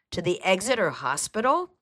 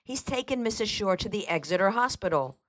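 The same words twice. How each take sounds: First: Raised pitch, rising questioning echo; taken-aback question; surprised. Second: Said in the usual way. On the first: A narrator's reading. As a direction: repeat it in disbelief. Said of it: "Mason repeated in surprise".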